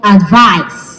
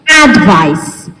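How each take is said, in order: First: The stress is on the second syllable. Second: The stress is on the first syllable. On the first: It is used as a verb. "the stress moves to the second syllable" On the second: It is used as a noun. "The stress is on the first when we're looking at it as a noun"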